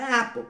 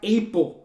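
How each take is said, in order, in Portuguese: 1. A primeira vogal é um 'a' aberto e curto. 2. A primeira vogal soa como o nome da letra A. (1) "Não é, é Apple" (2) "A é E. Então, vai falar Apple"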